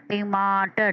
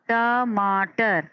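First: Said in the usual way. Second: टमाटर stretched out slowly and evenly; teacher models टमाटर slowly; slow whole word. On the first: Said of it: "तीन आवाज़ों में". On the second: Shown as a demonstration. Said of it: "इस तरीके से पढ़ते हैं".

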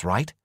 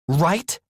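First: Said in the usual way. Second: Right? much higher and louder, pressing rise; insistent. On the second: Acted. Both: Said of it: "more insistently".

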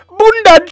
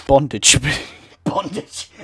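First: High, loud yelled Bondage; mock shout. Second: Laughing through the word Bondage. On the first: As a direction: bellow the word for a laugh. Mock shouting misread word. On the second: Real, not acted. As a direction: giggle out Bondage. Laughing repeat of pun.

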